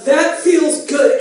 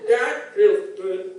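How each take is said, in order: First: Slow and loud, spelled out; loud slow repeat. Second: Slow, intimate whisper-like line. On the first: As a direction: repeat it louder for a deaf listener. Repeated louder for deaf partner. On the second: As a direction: breathe it low and slow. Acted partner's pillow talk. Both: Acted.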